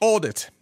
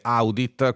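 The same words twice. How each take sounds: First: The first vowel is a single open o sound. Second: The first vowel is a gliding a-u diphthong. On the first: It follows the English pronunciation. "gli inglesi la pronunciano così" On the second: It follows the old Latin pronunciation. "con la AU pronunciata come si pronunciava ai tempi di Giulio Cesare"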